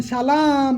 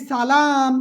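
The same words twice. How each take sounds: First: "সালাম" begun with sh, long second vowel; sh-sound demo. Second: "সালাম" with dental s, long second vowel; s-sound demo. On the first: Teacher contrasts the changed sound for students, "সালাম" drawn out as "shalaam". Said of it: "এখন বললাম সালাম". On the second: Teacher demonstrates the Arabic word, "সালাম" drawn out with s. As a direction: say "সালাম" slowly as "salaam". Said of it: "আমি যদি বলি সালাম". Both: Shown as a demonstration.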